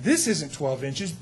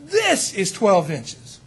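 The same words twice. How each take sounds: First: "this" lifted, softer, slow with rising end; stress on this. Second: "this" hit firmly, very slow with falling end; stress on this. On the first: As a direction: point at the wrong ruler with "this". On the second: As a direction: land the true ruler with a firm "this". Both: Shown as a demonstration. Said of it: "we know what the truth is".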